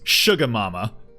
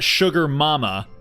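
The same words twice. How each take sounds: First: Sugar is said as 'shuga', ending in 'uh'. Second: Sugar is said with a full 'er' ending. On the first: The speaker calls it right. "It's sugar mama. You know, a la Proud Family. S H U G A M A M A" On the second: The speaker calls it wrong. "it's not sugar mama"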